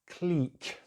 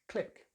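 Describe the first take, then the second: First: The vowel is a long 'ee' sound. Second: The vowel is a short 'i' sound. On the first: "in British English, it's cleek" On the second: "Americans just use the short vowel sound, which is I"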